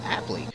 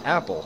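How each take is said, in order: First: The word ends with an added 'ee' sound. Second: The word ends with a plain 'l' sound. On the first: The speaker calls it right. "it's actually pronounced Appley" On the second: The speaker calls it wrong. "a big misconception is that it's pronounced apple"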